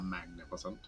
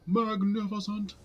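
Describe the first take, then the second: First: "magnificent" said with an extra syllable, mag-ni-fi-sen. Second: "Magnificent." said properly, slow and much higher; correct pronunciation. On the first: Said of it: "I added an extra syllable to magnificent". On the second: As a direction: carefully pronounce "Magnificent." as mag-NIF-i-cent, drawn out. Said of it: "It's not a magnificent". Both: Shown as a demonstration.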